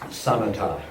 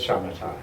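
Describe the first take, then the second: First: The word begins with a plain s sound. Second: The word begins with a sh sound. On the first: This is the Pali form of the word. "I prefer Pali pronunciation" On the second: This is the Sanskrit form of the word. "as shamatha in Sanskrit"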